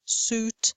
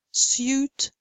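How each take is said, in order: First: "suit" said as "soot" with long oo; no y after s in "suit"; American, no glide. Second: "suit" said as "syoot"; British y glide. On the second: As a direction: put a y after s in "suit". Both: Shown as a demonstration. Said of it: "Same thing".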